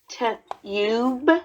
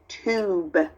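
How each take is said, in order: First: The vowel is a short 'uh' sound. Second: The vowel is a long 'oo' sound. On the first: The speaker calls it wrong. "That doesn't sound quite right" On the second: The speaker calls it right. "So then I would try the oo sound"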